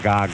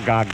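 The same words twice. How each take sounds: First: It is said flatly, with no expression. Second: It is said expressively, with strong feeling. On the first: The word is said with no real meaning behind it. The speaker calls it wrong. "an ordinary baby would just say gaga, gaga, gaga, with no feeling to it" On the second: The word is said as if it truly means something. The speaker calls it right. "when he says gaga, gaga, gaga, he means it"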